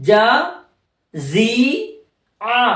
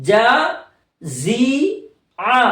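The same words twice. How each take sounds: Both takes have the same delivery.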